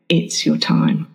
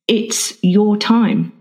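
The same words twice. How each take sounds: First: The stress is on the word time. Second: The stress is on the word your.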